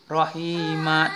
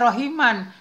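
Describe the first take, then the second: First: The word ends on a long a, no n. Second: The word ends with an n sound. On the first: The reading stops at this word. "kita wakafkan bacanya, maka itulah mad iwad" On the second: This is how it is written. "Tulisannya Rahiman"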